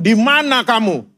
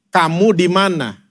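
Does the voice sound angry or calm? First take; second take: angry; calm. First: It is said in a loud, angry voice. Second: It is said in a calm, ordinary voice.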